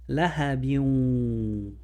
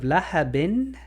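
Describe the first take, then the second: First: The n merges into a nasalized w sound. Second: The final n is pronounced fully and clearly. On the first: "Now it's going to sound like this" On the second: "where you pronounce the N one hundred percent"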